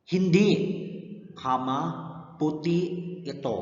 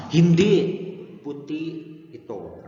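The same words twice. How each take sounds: First: Teacher models pause after hindi; juncture demo. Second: Hindi loud and high, a pause, then puti ito; teacher models Hindi / puti ito; juncture demo. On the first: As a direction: pause after hindi, then kama, puti ito. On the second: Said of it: "pag hindi, kama, puti ito". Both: Shown as a demonstration.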